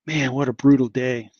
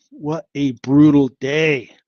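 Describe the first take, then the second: First: Said in the usual way. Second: Slow, louder, leaning on brutal; drawn-out lament. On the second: Real, not acted. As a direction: drag out brutal and let it hang. Repeats it, dragging it out.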